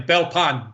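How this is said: The t sound in the middle is pronounced. Someone not from the area says it. "they pronounce it exactly the way it's spelled"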